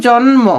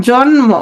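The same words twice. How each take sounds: The two takes are said the same way.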